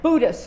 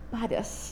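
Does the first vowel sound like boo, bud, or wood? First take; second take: boo; bud. First: The first vowel sounds like in boo. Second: The first vowel sounds like in bud. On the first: It sounds low rent. "the first sounds low rent, kind of ghost-like, Casper the Ghost" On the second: It sounds a little floral. "the last, sounds a little floral"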